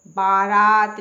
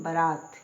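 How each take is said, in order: First: बारात loud with long first aa, baa-raat; wrong pronunciation. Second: बारात quick and lower, short first vowel, ba-raat; correct pronunciation. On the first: Teacher showing the mistake, बारात drawn out as baa-raat. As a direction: stretch both vowels of बारात loudly. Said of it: "बारात नहीं होता". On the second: Teacher answering herself, बारात said as ba-raat. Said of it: "क्या बोलते हैं". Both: Shown as a demonstration.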